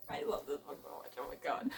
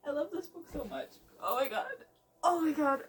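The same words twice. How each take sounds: First: A fast breathy whisper of "I love this book so much", much softer and lower; whispered gush. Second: Quick, high, gushing "I love this book so much"; excited gush. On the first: Reader murmurs to herself over the book in a quick whisper. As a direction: breathe it out to herself, barely voiced. Murmured aside while reading. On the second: Reader gushes to viewers about her book, quick and high. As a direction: rush it out, higher, giddy. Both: Real, not acted.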